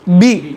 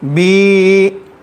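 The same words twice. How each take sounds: First: The vowel is short, smooth and relaxed. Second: The vowel is drawn out long. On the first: The speaker calls it right. "असल क्या है? बी" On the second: The speaker calls it wrong. "खींचेंगे तो ये है बी"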